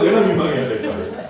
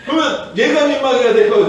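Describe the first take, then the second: First: 내가 stressed, the rest easing off with a laugh. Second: 얘가 punched louder, falling at the end; stress on 얘가. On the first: Preacher asks the congregation, stressing 내가. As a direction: lean on 내가, half laughing. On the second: Preacher asks the congregation, stressing 얘가. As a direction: hit 얘가 hard, as in this kid should be embarrassed. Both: Acted. Contrasting who should be embarrassed.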